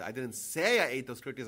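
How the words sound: The stress is on the word 'say'. The speaker may have only thought it. "I might have thought of it"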